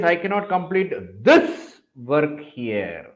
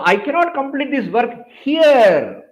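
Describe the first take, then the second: First: The stress is on the word this. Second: The stress is on the word here.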